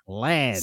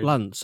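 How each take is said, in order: First: The name is said with a more nasal vowel. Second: The name is said in a slightly northern accent. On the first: It imitates another person's way of saying the name. "See how weird it sounds? If it's not the way you say it" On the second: It is the speaker's own natural way of saying the name. "I say Lance naturally because I'm slightly northern"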